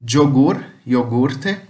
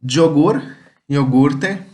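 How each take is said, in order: No difference in how they are said.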